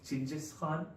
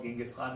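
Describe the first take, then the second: First: The name begins with a 'ch' sound. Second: The name begins with a soft 'j' sound. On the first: This is closer to the original form of the name. The speaker calls it right. "closer to the pronunciation of Ching" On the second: This is the Latinized form of the name. The speaker calls it wrong. "Probably not called Genghis Khan"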